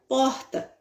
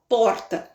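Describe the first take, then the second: First: The R is dragged, in the carioca way. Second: The R is said plainly, not dragged. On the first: "ele fala porta, né? Esse R arrastadinho" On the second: "o carioca não fala porta"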